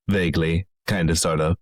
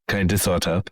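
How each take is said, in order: First: A hint of a Finnish accent on "kind of, sort of"; lightly Finnish lilt. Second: Lightly Finnish "kind of, sort of", syllables clipped; echoing in a faint Finnish accent. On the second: Acted. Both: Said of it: "I'm doing a Finnish accent".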